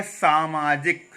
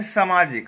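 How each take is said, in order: First: सामाजिक slow, with long saa and maa; correct pronunciation. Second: सामाजिक with a short first vowel, "samaajik"; wrong pronunciation. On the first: Teacher correcting the slip, correct pronunciation. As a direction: stretch both first vowels of सामाजिक. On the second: Teacher quoting how we say it, wrong pronunciation. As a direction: hurry the opening of सामाजिक. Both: Shown as a demonstration. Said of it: "सामाजिक नहीं होता है".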